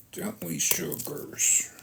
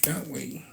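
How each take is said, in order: First: Slow breathy coo to the pets; soft whisper. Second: Said in the usual way. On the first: Real, not acted. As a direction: whisper it tenderly, slowly. Coos to pets after plain question.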